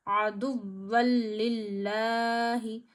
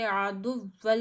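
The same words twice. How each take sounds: First: आदुव्वल लिल्लाही with लाम doubled, slow, no nasal; correct recitation. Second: आदुव्वल with the nasal stretched, the wrong way; wrong reading. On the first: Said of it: "ज़रा भी खींचेंगे नहीं". (आदुव्वल लिल्लाही सही तरीके से) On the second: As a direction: show आदुव्वल as the mistake. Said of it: "ऐसे नहीं पढ़ सकते". (आदुव्वल गलत तरीके से) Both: Shown as a demonstration.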